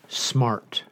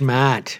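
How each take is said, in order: First: It is said in a standard accent. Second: It is said in a New England accent.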